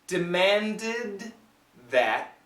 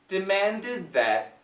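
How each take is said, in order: First: The phrase is said slowly. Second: The phrase is said at normal speed.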